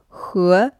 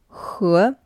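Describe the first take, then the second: The two takes are said the same way.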